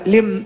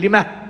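First: The word ends on a silent m sound. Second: The word ends with an added h sound. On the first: "ما تقف عليها لم" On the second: "هو يزيدها هاء"

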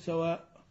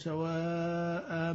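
First: The word ends abruptly on a glottal stop. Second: The word ends with a long a vowel. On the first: The speaker calls it wrong. "ما تقول سواء" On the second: The speaker calls it right. "لكن في النطق تقرأ بالف، تقول ليسوا سواء"

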